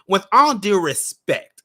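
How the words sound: It is read in a nasal, put-on voice.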